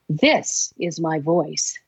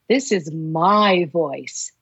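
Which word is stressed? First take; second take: This; my. First: The word 'this' carries the stress. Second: The word 'my' carries the stress.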